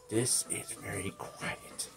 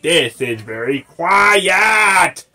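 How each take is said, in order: First: It is said very quietly. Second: It is said very loudly.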